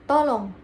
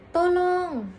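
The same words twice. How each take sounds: First: The vowel has normal, short length. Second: The vowel is drawn out long. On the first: "vokal normal" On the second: "vokal panjang"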